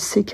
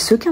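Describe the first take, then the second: First: The first vowel is a clear 'ay' sound. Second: The first vowel is a weak 'uh' sound. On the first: The speaker calls it wrong. "Je sais jamais si on dit séquin ou sequin" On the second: The speaker calls it right. "On dit sequin parce qu'il n'y a pas de « et »"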